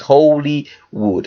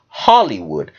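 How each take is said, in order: First: The first part sounds like the word holy. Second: The first part sounds like the word holly. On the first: The speaker calls it right. "The real pronunciation is holy wood" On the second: The speaker calls it wrong. "not Hollywood, as we say it"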